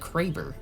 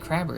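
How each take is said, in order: First: The first syllable sounds like 'cray'. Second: The first syllable sounds like 'crab'. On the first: The speaker calls it right. "it's the Kraber" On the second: The speaker calls it wrong. "it's not the Crabber"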